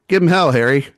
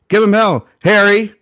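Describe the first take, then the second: First: It is said flatly, like a plain title. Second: It is said loudly, like an exclamation.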